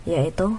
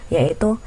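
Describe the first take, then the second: No difference in how they are said.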